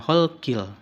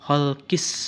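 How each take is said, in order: First: A clear l sound is pronounced. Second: The l sound merges into the s. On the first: The speaker calls it wrong. "bukan holkil" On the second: The speaker calls it right. "tapi holkis samawati"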